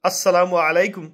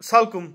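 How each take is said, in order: First: The greeting is said fully with every syllable. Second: The greeting is slurred into a short clipped form. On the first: The greeting is given properly and respectfully. The speaker calls it right. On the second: The greeting is given carelessly, without effort. The speaker calls it wrong.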